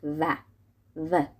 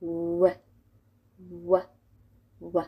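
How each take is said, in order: First: "و" as v, on the lip; Persian V sound. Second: "و" as English w with pursed lips; rounded-lip W. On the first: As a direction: say "و" as v, teeth on lower lip. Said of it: "وی همون و فارسی خودمونه". («و» فارسی، روی لب) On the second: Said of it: "قشنگ باید لباتون رو قنچه کنی". («و» انگلیسی با لب غنچه) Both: Shown as a demonstration.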